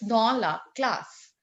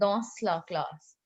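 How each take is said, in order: First: The final s of dans is silent. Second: The final s of dans is pronounced. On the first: The speaker calls it right. "We always have to keep consonants silent that lie in the end" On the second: The speaker calls it wrong. "students making mistake by saying dans la classe. It's not dans"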